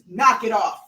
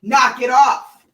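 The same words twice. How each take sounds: First: Said in the usual way. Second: Slower, higher, louder repeat; louder warning. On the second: Real, not acted. Owner repeating her warning to the puppy, slower and louder. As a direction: draw out each word as the final warning.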